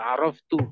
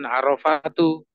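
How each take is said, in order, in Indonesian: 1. Tidak terdengar vokal di antara f dan t. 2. Terdengar vokal di antara f dan t. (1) "tapi aroftu" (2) "Jadi bukan arofatu"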